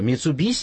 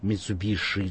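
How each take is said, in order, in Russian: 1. Последний согласный — обычный s. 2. Последний согласный — звук sh. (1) "это правильно" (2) "в Европе и вообще в мире говорят Митсубиши"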